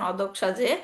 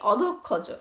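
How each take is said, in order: First: It is pronounced in Sanskrit style. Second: It is pronounced in Bengali style. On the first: "সংস্কৃতে উচ্চারণ" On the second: "বাংলাতে বলা হয়"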